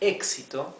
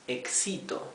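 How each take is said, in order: First: The stress is on the first syllable. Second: The stress is on a later syllable. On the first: The speaker calls it right. "Instead of saying éxito" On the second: The speaker calls it wrong. "if it didn't, we would read it éxito"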